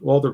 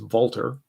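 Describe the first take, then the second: First: The name is said with an English pronunciation. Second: The name is said with a German pronunciation. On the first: The speaker calls it wrong. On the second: The speaker calls it right.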